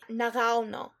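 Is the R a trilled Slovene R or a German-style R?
German-style. It uses a German-like Carinthian R.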